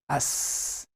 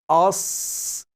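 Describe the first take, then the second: First: The sound is light, with a thin mouth. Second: The sound is heavy, with a full mouth. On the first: The speaker calls it wrong. "not to apply full mouth quality" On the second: The speaker calls it right. "we pronounce it with full mouth quality"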